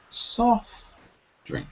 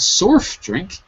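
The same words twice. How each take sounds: First: The vowel in 'soft' sounds like 'saw'. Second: The vowel in 'soft' sounds like 'so'. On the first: The speaker calls it right. "it's soft drink" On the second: The speaker calls it wrong. "It's not soft drink"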